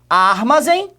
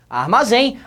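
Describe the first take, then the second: First: The stress is on the first syllable. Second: The stress is on the last syllable. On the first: The speaker calls it wrong. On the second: The speaker calls it right.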